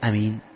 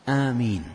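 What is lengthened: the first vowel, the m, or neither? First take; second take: neither; first vowel. First: The first vowel is short; the m is single. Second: The first vowel is long; the m is single. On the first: The speaker calls it wrong. "لا يقول أمين، يتغير المعنى" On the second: The speaker calls it right. "فهي آمين الميم مخففة والألف ممدودة وليست مجرد فتحة"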